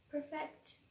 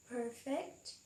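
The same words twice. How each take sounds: First: "perfect" as a verb, per-FECT, second syllable stressed; "perfect" stressed on the end. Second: "Perfect" as a noun, PER-fect, first syllable stressed; "Perfect" stressed up front. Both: Shown as a demonstration. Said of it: "Repeat after me".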